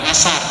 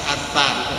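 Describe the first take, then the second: First: The middle consonant is a plain s sound. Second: The middle consonant is a soft th sound. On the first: The speaker calls it wrong. "bukan asar" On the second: The speaker calls it right. "alif sa ro ya, asar, bukan asar tapi asar"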